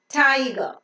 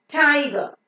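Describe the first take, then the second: No difference in how they are said.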